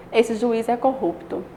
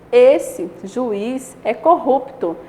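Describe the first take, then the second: First: Said in the usual way. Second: Esse, pause, juiz é corrupto very slow and louder. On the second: Shown as a demonstration. Teacher reading the villain version slowly. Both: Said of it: "Olha a diferença, até na entonação".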